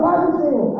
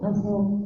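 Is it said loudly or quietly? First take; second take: loudly; quietly. First: It is said loudly and energetically. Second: It is said quietly, almost mumbled.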